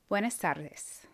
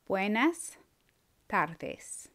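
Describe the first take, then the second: First: The phrase is said at normal speed. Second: The phrase is said slowly and carefully. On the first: "I'm going to go ahead and say the words" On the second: "then I'll say it slower"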